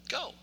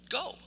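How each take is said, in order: No difference in how they are said.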